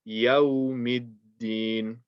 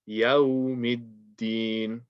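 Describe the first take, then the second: Both takes have the same delivery.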